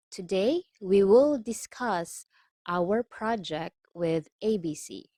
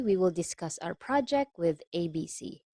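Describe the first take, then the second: First: Careful phrases with pauses between; slow reading. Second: Said in the usual way. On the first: Shown as a demonstration. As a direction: read it out slowly, chunk by chunk. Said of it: "let's take this slowly".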